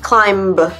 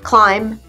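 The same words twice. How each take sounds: First: The final b is pronounced at the end. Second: The final b is silent at the end. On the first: The speaker calls it wrong. "not climb" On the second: The speaker calls it right. "Just climb"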